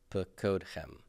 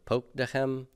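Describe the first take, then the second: First: It begins with two syllables 'pa-kod'. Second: It begins with a single closed syllable 'pok'. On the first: "retain the pacode pattern with the vocal shava first" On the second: "I could retain the poke pattern"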